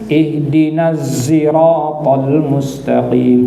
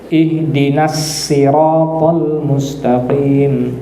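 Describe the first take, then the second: First: Sirat begins with a voiced z sound. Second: Sirat begins with a plain, light s sound. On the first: "huruf zai" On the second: "huruf sin"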